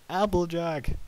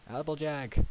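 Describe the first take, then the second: First: Very loud, high, drawn-out cry; frightened shout. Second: Higher, louder urgent call; shouted. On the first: Worried Twilight calls Applejack a second time, shouting hard. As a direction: yell the name in alarm. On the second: Twilight runs up behind Applejack, shouting. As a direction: call out to catch her attention. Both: Acted. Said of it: "Twilight shouted".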